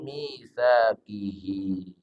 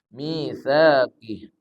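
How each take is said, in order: First: The word ends with a vowel held two beats. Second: The word ends on a bare, silenced final consonant. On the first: The reciter continues into the next word. "Kalau disambung misakihi. Panjang dua harokat" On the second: The reciter stops at this word. "Kita berhenti di situ"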